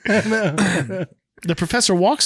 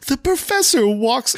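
First: It is said in the plain narrating voice. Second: It is said in a put-on character voice. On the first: The speaker calls it right. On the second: The speaker calls it wrong.

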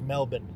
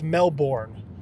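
First: The word is said the local Australian way. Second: The word is said the Midwestern American way. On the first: "it's pronounced Melbourne" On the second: "It's Melbourne to us. Midwesterners"

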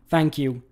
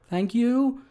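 First: The voice falls at the end. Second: The voice rises at the end. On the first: "It's not like" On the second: "he sort of goes up at the end like he had more to say"

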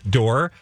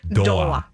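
First: It is said with a plain English pronunciation. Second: It is said with a Japanese-style vowel ending.

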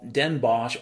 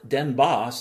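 First: Bosch ends with an sh sound. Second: Bosch ends with an s sound.

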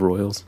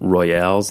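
First: The word is said in its ordinary English way. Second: The word gets an extra fancy European-sounding ending. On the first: The name is said as normally spelled. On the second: The name is dressed up to sound elegant.

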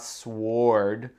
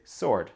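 First: The w is pronounced after the s. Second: The w is silent after the s. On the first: The speaker calls it wrong. "C'est pas sword. Ça c'est trop dur" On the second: The speaker calls it right. "le W ici, ça se prononce pas"

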